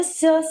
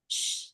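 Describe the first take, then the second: First: "s" voiced with an "uh" after it; sound with added vowel. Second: "sh" as a soft voiceless hush; very quiet, unvoiced "sh"; pure sh sound. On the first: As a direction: add a schwa to "s". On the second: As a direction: hold "sh" with no vowel after it. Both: Shown as a demonstration. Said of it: "not a s sound".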